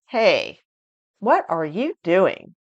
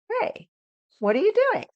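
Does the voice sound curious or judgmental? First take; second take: judgmental; curious. First: The question sounds judgmental and somewhat angry. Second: The question sounds curious and interested. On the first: The speaker disapproves of what the person is doing. "it's very judgmental. It might even sound angry" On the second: The speaker genuinely wants to know. "I sound very curious, and the emotion is curiosity"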